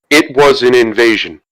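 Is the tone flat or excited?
flat. It is said in a flat, unexcited tone.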